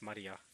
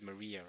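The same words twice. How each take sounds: First: The name is said with a Japanese pronunciation. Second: The name is said with an English pronunciation. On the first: "That's how they pronounce it in Japanese" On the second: "technically the English pronunciation is Maria"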